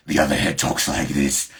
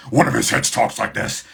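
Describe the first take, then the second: First: Loud, lower monster-head voice; second monster head. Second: Loud, higher-pitched monster-head voice; first monster head. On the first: Showing fans the other head of Cerberus, low loud monster voice. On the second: Showing fans one head of Cerberus, loud high monster voice. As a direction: raise it into a loud creature voice. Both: Shown as a demonstration.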